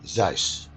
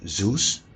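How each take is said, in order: First: The name is said with a Dutch pronunciation. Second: The name is said with an English pronunciation. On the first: This is how Dutch speakers say it. "We call this guy Zeus" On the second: This is how English speakers say it. "at least we don't call him Zeus"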